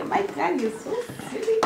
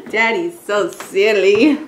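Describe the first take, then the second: First: Put-on high, fast, soft baby voice. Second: Said in the usual way.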